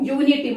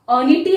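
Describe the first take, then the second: First: The word begins with a 'yoo' sound. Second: The word begins with a short 'uh' sound. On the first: The speaker calls it right. "यू, यूनिटी" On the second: The speaker calls it wrong. "अनिटी है? नहीं"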